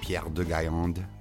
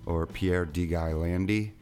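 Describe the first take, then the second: First: The name is pronounced the French way. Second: The name is pronounced the English way.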